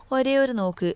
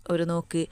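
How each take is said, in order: First: ഒരേ ഒരു pitched high, falling onto നോക്ക്; emphatic repetition. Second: Said in the usual way. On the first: A narrator's reading. Longing for just one glimpse of the child, ഒരേ ഒരു stressed high. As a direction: stress ഒരേ ഒരു with a higher pitch, then let it fall.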